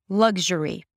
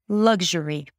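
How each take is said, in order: No difference in how they are said.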